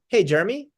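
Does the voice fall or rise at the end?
rise. The voice rises like a question at the end. It makes the listener feel they should know the caller. The speaker calls it right. "there's a tonality that's a questioning tonality"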